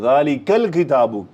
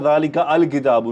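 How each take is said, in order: First: The 'ka' runs straight into 'l' without a vowel. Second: The vowel of 'al' is sounded separately. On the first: The speaker calls it right. "Direct काफ को लाम से कनेक्ट कर रहा हूं" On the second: The speaker calls it wrong. "मैं नहीं कह रहा ज़ालिका अल किताबु, नो"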